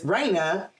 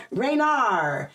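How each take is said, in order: First: Said in the usual way. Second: Raynar with an R tacked on the end; added final R. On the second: Retold or imitated. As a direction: imitate mom ending Raynar on a drawn R sound. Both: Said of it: "put R's where they didn't belong".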